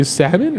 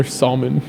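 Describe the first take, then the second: First: First "salmon" with silent l, SAM-un; "salmon" with no l sound. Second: Second "salmon" with the l pronounced, SAHL-mun; "salmon" as SAHL-mun, l heard; sounded L. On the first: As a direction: offer "salmon" the usual American way, SAM-un. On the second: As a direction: offer "salmon" with its L spoken. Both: Shown as a demonstration. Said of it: "Do you guys say".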